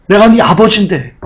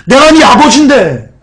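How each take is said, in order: First: Said in the usual way. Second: Higher, emphatic "내가 네 아버지인데"; insistent. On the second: Acted. God pleading as father with doubting children, insistent on "아버지인데". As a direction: press "아버지인데" upward in pitch, then let it fall. God's reply repeated with more force.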